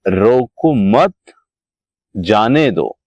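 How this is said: There is a pause after 'mat'. Do not stop the person; let them go. "अब यहां पर इसको यदि थोड़ा सा इधर लगा देते हैं, रोको मत"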